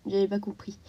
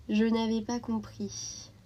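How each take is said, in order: First: Said in the usual way. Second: "Je n'avais pas compris" said slowly, every syllable with the ne; slow careful correction. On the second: Shown as a demonstration. Streamer correcting herself to proper French, slow and careful.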